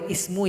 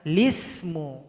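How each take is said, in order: First: The word starts directly with the vowel i. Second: The word starts with an L sound before i. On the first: The speaker calls it wrong. "Jadi nggak boleh ismu ya" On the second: The speaker calls it right. "Yang betul itu adalah bi salismul"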